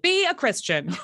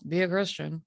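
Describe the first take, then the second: First: It is said in an intense, striving tone. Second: It is said in a calm, plain tone. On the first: Faith must be pursued with excellence. "We have to like" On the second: Simply being a believer is enough. "just in this tone of voice"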